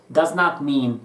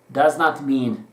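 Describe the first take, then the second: No difference in how they are said.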